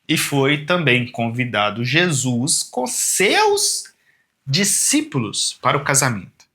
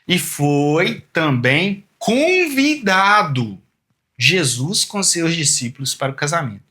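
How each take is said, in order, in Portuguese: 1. A frase é lida sem ênfase especial. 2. A palavra convidado é fortemente enfatizada.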